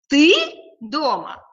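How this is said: The stress falls on the word ты.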